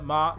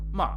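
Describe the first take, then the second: First: The syllable has no pitch movement at all. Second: The pitch drops sharply on the syllable. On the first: "just like no intonation" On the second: "ma is the drop tone"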